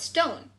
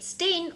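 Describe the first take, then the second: First: The vowel sounds like the one in 'stone'. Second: The vowel sounds like the one in 'stain'. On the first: "the South people call it stone" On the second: "the North said stain or stien"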